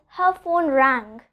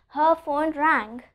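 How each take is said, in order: Both takes have the same delivery.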